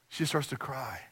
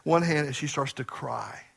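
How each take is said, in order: First: The repeat dropped to a hush; softly repeated. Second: Said in the usual way. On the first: Shown as a demonstration. Pastor repeats his sister's crying, hushed. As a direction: let it fall quiet on the repeat.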